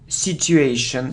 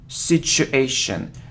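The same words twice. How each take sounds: First: The middle consonant is not an sh sound. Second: The middle consonant is an sh sound. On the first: The speaker calls it wrong. "So I often hear situation" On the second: The speaker calls it right. "it's the sound sh"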